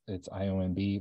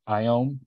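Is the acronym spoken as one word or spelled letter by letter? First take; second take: spelled out; one word. First: The acronym is spelled out letter by letter. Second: The acronym is spoken as a single word. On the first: The speaker calls it right. "it's IOMB, we like say it out" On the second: The speaker calls it wrong. "apparently we don't say IOM"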